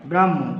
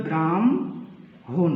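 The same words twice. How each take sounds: First: Said in the usual way. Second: ব্রাহ্মণ said slowly as bram-hon, ম before হ; spoken pronunciation. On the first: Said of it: "কিন্তু এটার উচ্চারণ হবে কি". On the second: Shown as a demonstration. Teacher showing students the true sound of ব্রাহ্মণ, slow and drawn out. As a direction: draw out ব্রাহ্মণ as bramhon, ম first then হ. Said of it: "উচ্চারণ হবে".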